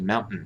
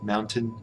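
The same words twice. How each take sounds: First: The middle t is a glottal stop, American style. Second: The middle t is fully released, British style.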